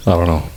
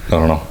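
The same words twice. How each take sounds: The two takes are said the same way.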